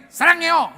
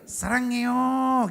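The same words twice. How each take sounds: First: Short, high, loud "Sarangyo"; barked wrong way. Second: Slow "Sarangyo" with long gliding vowels; sweetly drawn out. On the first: Comic showing how Korean can't be said, short and loud. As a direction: fire off "Sarangyo" like an order. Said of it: "nggak bisa kita bilang gini". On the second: Comic showing the proper Korean way, slow and sweet. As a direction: stretch "Sarangyo" out lovingly. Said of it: "Memang gitu". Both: Shown as a demonstration.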